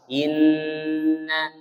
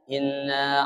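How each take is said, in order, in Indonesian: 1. Dengung pada 'nn' panjang. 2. Dengung pada 'nn' pendek. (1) "Seharusnya dengungnya agak panjang. Empat harokat" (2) "Dengungnya hanya sedikit"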